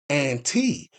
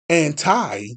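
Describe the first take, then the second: First: The word ends with a long 'ee' sound. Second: The word ends with a long 'eye' sound. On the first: It is a prefix meaning counteracting an action. "with a long E" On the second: It means opposed in thought or policy. "with the long I sound"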